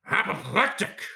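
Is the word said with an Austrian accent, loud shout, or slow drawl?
loud shout. The word is shouted loudly and explosively. "How would Al Pacino say apoplectic?"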